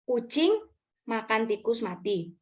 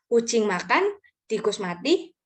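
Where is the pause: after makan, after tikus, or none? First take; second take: none; after makan. First: It is read straight through without a pause. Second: There is a pause after the second word. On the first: A cat eats a dead rat. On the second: The cat eats, and the rat dies.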